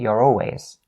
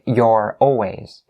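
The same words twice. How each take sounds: First: The two words are linked smoothly together. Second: The two words are kept separate, not linked. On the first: "I don't say you're always" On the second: "I actually don't have the habit of linking it here"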